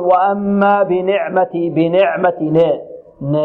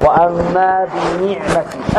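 First: بنعمتي with ن as "ne", between i and a; kasra tilted open. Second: بنعمتي slowly, with ن a clear "ni"; full kasra. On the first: Retold or imitated. Teacher mimicking readers who blur the kasra, "ne". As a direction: imitate the mistake, "bine'mati" for بنعمتي. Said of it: "هذه بين الكسرة والفتحة". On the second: Shown as a demonstration. Teacher modelling the correct reading for students, full kasra. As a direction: give the ن of بنعمتي a pure i. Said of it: "أشبع النون".

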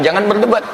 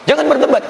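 First: Said in the usual way. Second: The warning said again, pitched up and stressed; emphatic repeat. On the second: Acted. Preacher pressing the pilgrims not to argue, emphatic. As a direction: stress berdebat harder this time.

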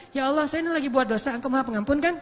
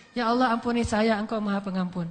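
First: Flippant prayer ending in a cheeky question rise on kan; mocking prayer. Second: Humble prayer. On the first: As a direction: tease God while still sinning. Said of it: "itu mah ngeledekin Allah". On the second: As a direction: pray it sincerely, asking forgiveness. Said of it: "Jadi kalau kita bilang". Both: Shown as a demonstration.

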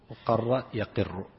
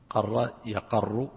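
First: وقر يقر, i after the second qaf, slow; kasra in the present. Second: قر يقر, a after the second qaf, slow; fatha in the present. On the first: Sheikh drilling the other verb variant slowly, yaqirru with kasra. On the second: Sheikh drilling one verb variant slowly, qarra yaqarru. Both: Shown as a demonstration. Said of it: "ويقر أيضًا عند بعضهم".

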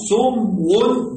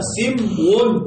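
First: سمو with a short u, "sumwun"; damma on the sin. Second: سمو with a short i, "simwun"; kasra on the sin. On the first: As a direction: sound out سمو as "sum-wun". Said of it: "بضم ماذا؟". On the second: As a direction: sound out سمو as "sim-wun". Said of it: "بكسر السين". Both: Shown as a demonstration.

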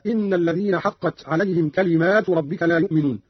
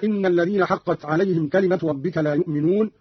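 First: كلمات with a long aa after the m; Qalun's plural reading. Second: Said in the usual way. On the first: Shown as a demonstration. Teacher shows Qalun's reading, كلمات with alif after the mim. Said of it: "قرأ قالون بألف بعد الميم على الجمع". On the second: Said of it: "قرأ قالون بألف بعد الميم".

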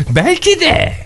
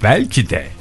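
First: Comically high put-on voice; high-pitched mock exclamation. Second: Quieter, low-pitched "belki de"; low musing. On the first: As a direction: leap way up on "Belki de". (abartılı, çok tiz sesle) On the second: Pretend. (alçak sesle, düşünür gibi) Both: Şakayla aynı sözü iki tonda söylüyor.

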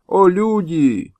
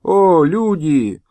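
First: Higher, very slow wailing plea; slow higher wailing call; old man's lament. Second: Slow, drawn-out lament; slow pleading call; old man's lament. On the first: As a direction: wail it slowly with arms raised. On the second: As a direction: cry out slowly to the heavens. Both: Acted. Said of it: "Старик поднял руки к небу".

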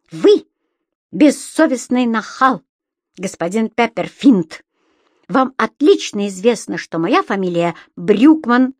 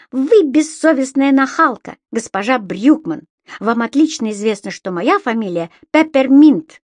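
First: Firm, emphatic scolding; indignant. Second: Higher, louder mocking echo of a scolding; shouting back. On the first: Landlady correcting tenant on her surname, indignant. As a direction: protest crossly, punching each phrase. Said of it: "возмутилась хозяйка". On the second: Imp returns landlady's insult as the tenant, shouted back. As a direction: fling the rebuke back cheekily. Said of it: "крикнул в ответ Субастик". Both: A narrator's reading.

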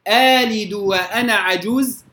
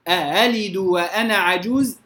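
First: آلد opened on a long stretched aa; hamza replaced by long alif. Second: أألد with the second hamza softened, not lengthened; touch the second hamza of أألد lightly; eased second hamza. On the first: Quran teacher contrasting the two readings, long aa. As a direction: draw out the aa of آلد instead of a hamza. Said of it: "إبدال". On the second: Quran teacher contrasting the two readings, eased hamza. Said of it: "تسهيل". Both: Shown as a demonstration.

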